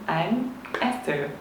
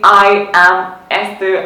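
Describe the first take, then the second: First: I am is contracted to one syllable. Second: I am is said as two full words. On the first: It sounds relaxed. The speaker calls it right. "I'm Esther is more relaxed" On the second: It sounds stiff. The speaker calls it wrong. "I am Esther sounds too stiff"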